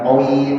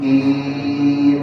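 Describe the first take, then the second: First: The vowel after q sounds like oi. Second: The vowel after q is a plain i. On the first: The speaker calls it wrong. "bukan qoi enggak" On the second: The speaker calls it right. "Qim bukan qoi"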